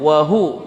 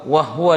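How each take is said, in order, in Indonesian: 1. Bunyi h diikuti vokal u yang jelas. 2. Bunyi h langsung menyambung ke w tanpa vokal. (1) "padahal di situ dhammah wahu wahu" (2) "Banyak yang salah di sini wahwa wahwa dibaca"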